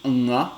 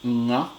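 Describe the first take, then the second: No difference in how they are said.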